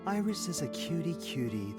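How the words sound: It is said warmly, with feeling.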